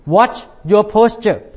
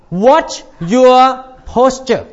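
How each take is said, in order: First: Said in the usual way. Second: Watch your posture, each word slow and heavy; slow stressed warning. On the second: Shown as a demonstration. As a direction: drag out Watch your posture like a firm reminder.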